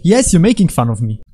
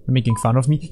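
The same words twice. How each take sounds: First: "Yes" leaps up high, then emphatic; mock indignation. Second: Said in the usual way. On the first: Player answering his own question, mock indignation on "Yes".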